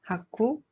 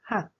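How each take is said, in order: First: The ending is drawn out, not cut off. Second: The ending is cut off quickly and softly. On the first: The speaker calls it wrong. "It's not 하쿠" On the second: The speaker calls it right. "it's just 학, like you cut the end quickly"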